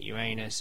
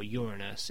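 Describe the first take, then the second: First: It sounds like the phrase 'your anus'. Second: It sounds like the word 'urine'. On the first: The name evokes a backside. "in which you refer to your ass" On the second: The name evokes urine. "in which you refer to piss"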